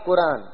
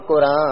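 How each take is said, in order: First: The final n is fully pronounced as a consonant. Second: The final n is only a nasalized vowel. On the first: "ਫਿਰ ਪੂਰਾ ਨੂਨ ਬੋਲਿਆ ਜਾਵੇਗਾ ਤੇ ਹੋਵੇਗਾ ਕੁਰਾਨ" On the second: "ਕਿਉਂਕਿ ਨੂਨ ਗੁਨਾ ਹੋਵੇਗਾ ਇਸ ਲਈ ਇੱਥੇ ਬਿੰਦਾ ਲਗਾ ਦਿੱਤਾ ਗਿਆ ਹੈ"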